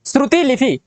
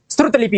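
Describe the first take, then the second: First: श्रुति लिपि with ti in the first word; extra i. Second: श्रुत लिपि with a bare t. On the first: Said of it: "नहीं होता है". (श्रुति लिपि, ति में इ) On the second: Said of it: "होता है". (श्रुत लिपि, बिना इ का त) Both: Shown as a demonstration.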